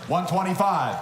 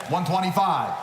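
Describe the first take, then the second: No difference in how they are said.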